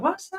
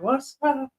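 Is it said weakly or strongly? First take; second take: strongly; weakly. First: It is said strongly, with energy. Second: It is said weakly, with little energy.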